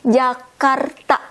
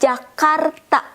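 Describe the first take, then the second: First: The word begins with a J sound. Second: The same.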